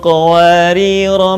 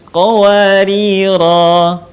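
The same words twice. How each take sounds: First: The final vowel is kept short. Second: The final vowel is drawn out long. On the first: The reading continues into the next verse. "kalau dibaca nyambung dengan ayat berikutnya, maka kata qawarira dibaca pendek" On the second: The reader stops at this word. "Kalau berhenti, qawarir dipanjangkan"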